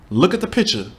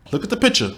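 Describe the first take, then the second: First: Said in the usual way. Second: Insistent. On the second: Real, not acted.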